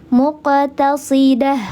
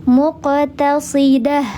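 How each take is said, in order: The two takes are said the same way.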